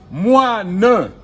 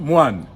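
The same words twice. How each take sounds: First: The final e vowel is pronounced aloud. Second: The final e vowel is left silent. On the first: The speaker calls it wrong. "On ne dit pas moine" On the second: The speaker calls it right. "On dit moine"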